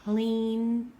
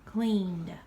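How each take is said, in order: First: "Cleaned" loud, ending in a plain D sound; "Cleaned" said loudly with only a D ending; exaggerated word endings. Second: "cleaned" with the final D said clearly; exaggerated word endings. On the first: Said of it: "where you only hear the d". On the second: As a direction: stress the D at the end of "cleaned". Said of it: "say that we have already cleaned". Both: Shown as a demonstration.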